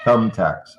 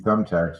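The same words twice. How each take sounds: First: The th sound is strongly exaggerated. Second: The th sound is made in a normal way. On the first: "I exaggerate it and I stick my tongue right outside of my mouth" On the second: "if you touch the back of your teeth"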